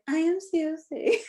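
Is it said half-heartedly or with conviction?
half-heartedly. It is said sleepily, without conviction.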